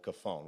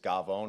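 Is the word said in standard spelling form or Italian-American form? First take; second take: standard spelling; Italian-American. First: It is said as the written-out word form. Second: It is said in the Italian-American cultural pronunciation. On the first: The speaker calls it wrong. "this guy called the Cafone" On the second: The speaker calls it right. "in Italian culture, it's Gavone, really, is how you pronounce it"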